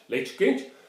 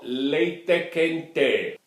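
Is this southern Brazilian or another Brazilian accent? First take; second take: other; southern. First: It is said in a non-southern Brazilian accent. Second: It is said in a southern Brazilian accent.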